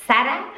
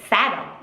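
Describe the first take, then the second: First: Sarah in Spanish, higher, rising SA-ra; Spanish accent. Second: Sarah in English, falling SAIR-uh; English accent. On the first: Contrasting Spanish and English pronunciations, Spanish accent. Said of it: "Like in Spanish". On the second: Contrasting Spanish and English pronunciations, English accent. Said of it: "and in English". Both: Shown as a demonstration.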